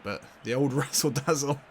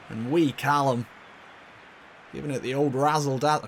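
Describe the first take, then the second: First: Said in the usual way. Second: Half-hearted attempt at a Scottish accent; bad Scottish accent. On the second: Commentator praising wee Callum, in a poor Scottish accent. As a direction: have a clumsy go at Scottish. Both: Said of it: "I can't do a Scottish accent".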